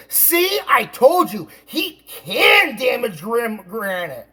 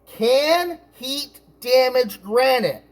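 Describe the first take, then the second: First: "can" hit high and hard, as vindication; triumphant stress on CAN. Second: "Can heat damage granite?" slow, high, word by word; deliberate question. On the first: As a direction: mimic an I-told-you-so, punching "can". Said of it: "she looked at it and she said". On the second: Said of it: "a YouTube video that says". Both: Retold or imitated.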